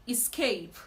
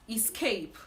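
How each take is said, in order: The two takes are said the same way.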